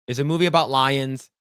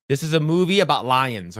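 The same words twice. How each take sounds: First: "It's a movie about lions" leaning on "about"; insistent repeat. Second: "This is a movie about lions" with weight on "movie"; lecturing line. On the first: Repeating the premise to [name], "about" stressed. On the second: [name] told the film's premise, "movie" stressed. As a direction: stress on "movie" with a falling finish. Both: Retold or imitated. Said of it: "It's like".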